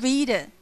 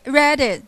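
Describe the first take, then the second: First: Said in the usual way. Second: "read it" said as "red it", short vowel; Cockney read it. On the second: Shown as a demonstration. Teacher shows the Cockney vowel in "read it". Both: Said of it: "not read it".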